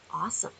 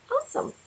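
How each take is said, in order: First: Said in the usual way. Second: "Awesome" squeaked very high and soft; a tiny high delighted "Awesome"; squealed awesome. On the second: Acted. Reading a happy tarot card.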